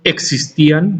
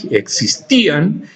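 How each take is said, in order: First: Said in the usual way. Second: "existían" slowly, leaning on the í; stress on the accented I. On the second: Shown as a demonstration. Teacher showing where the tilde goes, "existían" stressed on í. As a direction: stretch and lift the í in "existían". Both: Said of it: "con tilde en la I".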